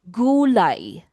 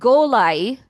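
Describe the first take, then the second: First: The first vowel sounds like 'oo'. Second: The first vowel sounds like 'o'. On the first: The speaker calls it right. "it's gu, gu, gu" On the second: The speaker calls it wrong. "It's not golay"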